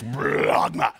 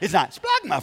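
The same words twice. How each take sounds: First: It is said deep and throaty, with a gurgle. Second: It is said lightly, without any gurgle. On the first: The speaker calls it right. "If you don't gurgle, you're not saying it right" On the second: The speaker calls it wrong. "It's not splagma from up here"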